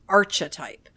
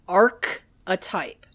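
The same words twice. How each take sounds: First: It begins with a 'ch' sound. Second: It begins with a hard 'k' sound. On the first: The speaker calls it wrong. "not archetype. It starts with arc, like a curve, not arch, like a bridge" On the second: The speaker calls it right. "the word is pronounced archetype"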